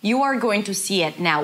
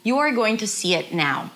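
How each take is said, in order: First: Each word is said fully and separately. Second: The same.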